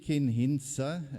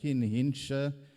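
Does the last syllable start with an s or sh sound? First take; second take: s; sh. First: The last syllable starts with a plain s sound. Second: The last syllable starts with an sh sound. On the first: The speaker calls it right. "I say it correctly" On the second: The speaker calls it wrong. "and not"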